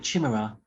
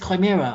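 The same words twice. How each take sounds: First: The word begins with a ch sound. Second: The word begins with a hard k sound. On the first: This is how the speaker used to say it. The speaker calls it wrong. "I always used to call it Chimera. Like, chim- chimney" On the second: This is how most people say it. The speaker calls it right. "everyone says Chimera"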